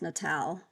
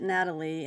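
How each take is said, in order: First: The name ends with an 'l' sound. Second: The name ends with an 'ee' sound. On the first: The speaker calls it right. "it's Natal" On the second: The speaker calls it wrong. "I pronounced it Natalie, and it's probably not"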